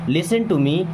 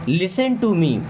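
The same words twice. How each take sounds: No difference in how they are said.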